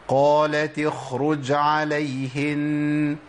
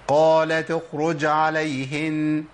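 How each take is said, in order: First: The kh sound is clearly heard. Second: The kh sound is dropped completely. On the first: The speaker calls it right. "نقولها بقى بشكل صحيح" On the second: The speaker calls it wrong. "أنا كده أسقطتها بالكلية"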